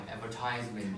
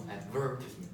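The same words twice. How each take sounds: First: "advertisement" with a long stressed TISE. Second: "advertisement" with short I, stressed VER. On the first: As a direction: say "advertisement" as ad-ver-TIZE-ment. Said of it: "So you stress on the I". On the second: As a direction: say "advertisement" as ad-VER-tis-ment. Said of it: "Stress on the, the". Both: Shown as a demonstration.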